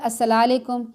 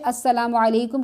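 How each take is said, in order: First: The greeting is clipped, with sounds run together. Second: The greeting is said in full, every syllable. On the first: The speaker calls it wrong. "हमारे कहते हैं अस्सलालेकुम" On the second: The speaker calls it right. "दुरुस्त तरीके से अस्सलामु अलैकुम कहना चाहिए"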